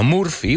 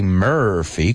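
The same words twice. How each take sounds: First: The first vowel sounds like a Spanish U. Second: The first vowel sounds like a Spanish E. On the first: The speaker calls it wrong. "No Murphy" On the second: The speaker calls it right. "We say Murphy, como si fuera una E"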